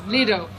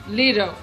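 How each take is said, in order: First: The middle t sounds like a soft d. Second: The same.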